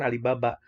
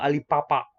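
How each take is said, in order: First: The middle consonants sound like a clear b. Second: The middle consonants sound between b and p. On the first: The speaker calls it wrong. "sebenarnya ini bukan Alibaba" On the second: The speaker calls it right. "Dibacanya itu Alipapa. Ba-nya itu sedikit antara B dan P"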